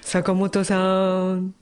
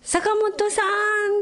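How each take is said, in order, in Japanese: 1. 名前は低い声で言っている。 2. 名前は高い声で言っている。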